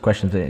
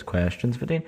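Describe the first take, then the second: First: Said in the usual way. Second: "questions for Dean" in a higher, softer lilt; "questions for Dean" lifted and soft, with a rise on "Dean"; jingle-style segment name. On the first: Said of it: "It's not just questions for Dean". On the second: Shown as a demonstration. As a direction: say "questions for Dean" like a show title, pitched up and rising at the end. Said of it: "It's not just questions for Dean, it's".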